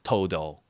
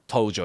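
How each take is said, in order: First: The middle consonant is a 'd' sound. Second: The middle consonant is a 'j' sound. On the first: The speaker calls it right. "it's Todo" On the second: The speaker calls it wrong. "it's not Tojo"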